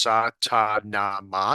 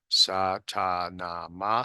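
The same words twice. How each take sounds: First: The phrase is said loudly. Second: The phrase is said quietly. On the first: "you say it loudly first" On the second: "then you say it quieter"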